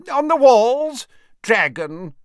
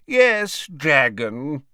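First: High, loud shout over a din; character's raised, high-pitched yell. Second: High character voice easing down, no shouting; matter-of-fact repeat, pitched high at first; conversational. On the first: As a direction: holler the answer across the noise. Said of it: "shouted the wizard called Horace". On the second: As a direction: repeat it casually, in a talking voice. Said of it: "repeated the wizard conversationally". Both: A narrator's reading.

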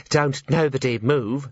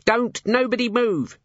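First: Slow, careful quoting of the order. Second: Slow, high shouted command; yelling. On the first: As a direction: repeat it back with care. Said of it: "said Drumknot carefully". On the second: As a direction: yell it at the room. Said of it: "she yelled". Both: A narrator's reading.

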